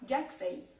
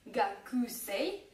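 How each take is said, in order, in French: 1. Le u après le k est presque muet. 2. Le u après le k est clairement prononcé.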